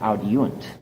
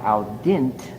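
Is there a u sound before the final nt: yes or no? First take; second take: yes; no. First: A u sound comes between i and nt. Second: The ending is a short i straight before nt. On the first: The speaker calls it right. "a U to insert itself there" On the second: The speaker calls it wrong.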